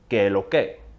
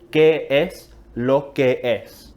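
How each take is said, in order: First: The phrase is said quickly and clipped short. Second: The phrase is said in full with its S sounds. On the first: "dicho rápido" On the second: "de hecho es una frase más larga"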